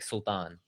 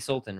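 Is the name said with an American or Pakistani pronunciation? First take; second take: Pakistani; American. First: The name has a Pakistani pronunciation. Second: The name has an American English pronunciation. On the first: "if we were back in Pakistan, it'd be like Sultan" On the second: "That's the American pronunciation"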